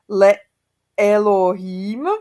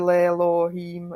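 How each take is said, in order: First: It is said as two words, le and Elohim. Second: It is merged into one word, lelohim. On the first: "tak by mělo být le Elohim" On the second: "vznikne z toho Lelohím"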